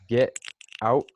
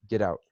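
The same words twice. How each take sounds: First: The T is cut off with a short stop. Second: The T becomes a quick D-like flap. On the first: "você fala get out, que você só para" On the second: "E o T vira um D muito rápido"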